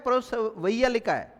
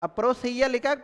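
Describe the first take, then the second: First: परोसवैया said slowly with the वैया ending marked; slow contrast word. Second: Said in the usual way. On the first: Shown as a demonstration. Teacher showing students the wrong ending, slow and marked. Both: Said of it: "ए की ध्वनि आ रही है last में".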